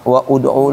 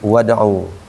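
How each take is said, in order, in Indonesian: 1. Vokal setelah wa dibaca sebagai suku kata yang terpisah. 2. Wa langsung menyambung ke konsonan berikutnya tanpa vokal. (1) "Bukan wa, wa ud'u lagi" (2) "tapi wad'u"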